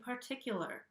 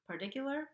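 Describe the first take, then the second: First: The T is a regular, crisp T sound. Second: The T is a quick flap, like a soft D. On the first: The speaker calls it right. "I'm saying particular with a regular T sound" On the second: The speaker calls it wrong. "I'm not saying part particular"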